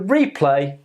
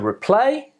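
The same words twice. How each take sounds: First: The stress is on the first syllable. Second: The stress is on the second syllable. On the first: It is used as a noun. "the noun" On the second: It is used as a verb.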